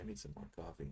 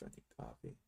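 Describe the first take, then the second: First: Said in the usual way. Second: A tired little whisper to himself; whispered aside. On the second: Real, not acted. Trader whispering to himself that he needs coffee, whispered. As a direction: whisper it, much softer, under the breath.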